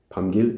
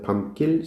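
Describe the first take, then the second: First: The second syllable starts with a plain, lax g. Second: The second syllable starts with a tense g. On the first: "원래 발음 그대로 하는 게 훨씬 발음이 쉽다" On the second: "이 된소리 발음은 한국 사람은 익숙해서 자연스럽게"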